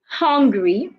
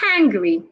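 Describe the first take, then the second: First: The first vowel is a wide-open vowel. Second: The first vowel is a short, narrower 'ah'. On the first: The speaker calls it wrong. "you don't say hungry" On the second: The speaker calls it right. "you say hangry"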